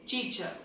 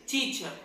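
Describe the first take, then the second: First: It is said with a British accent. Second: It is said with a British accent.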